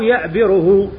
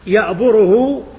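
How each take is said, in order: First: The vowel after b is i. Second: The vowel after b is u. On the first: "لك في المضارع الضم والكسر" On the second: "لك في المضارع الضم والكسر"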